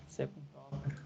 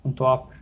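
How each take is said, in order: First: Much softer, half to himself while typing; muttered under breath. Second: Said in the usual way. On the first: Real, not acted. Teacher types code, mutters it to himself quietly. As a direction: mumble the code as you type it.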